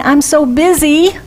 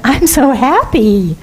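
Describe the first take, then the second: First: Harried sigh of busyness; lightly imitating a busy person; mock busy complaint. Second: Slow, contented I'm so happy; gently cheerful demo; happy reply. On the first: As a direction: sound overworked. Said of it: "instead of saying". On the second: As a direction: savour the word happy. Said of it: "what if we said". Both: Shown as a demonstration.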